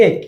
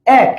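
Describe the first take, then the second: First: এক said with a closed 'e', as 'ek'; এক as 'ek', not 'aek'; closed vowel. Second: এক said with an open 'a' as in 'cat'; এক with the wide open æ sound; open vowel. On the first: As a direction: say এক with a narrow e, as spelt. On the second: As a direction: say এক as 'aek', drawn out. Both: Shown as a demonstration. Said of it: "তুমি যখন উচ্চারণ করো".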